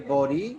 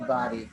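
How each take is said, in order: First: The word is said in a British accent. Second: The word is said in an American accent. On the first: "the British people say body" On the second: "but Americans say body"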